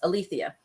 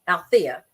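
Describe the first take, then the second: First: The name is said with four syllables. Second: The name is said with three syllables. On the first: "versus Alethea" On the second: "pronounced it Althea"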